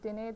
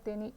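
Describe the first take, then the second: First: The word ends with an e vowel. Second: The word ends with an i vowel. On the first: This is the Mysore regional form. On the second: This is the Dharwad regional form.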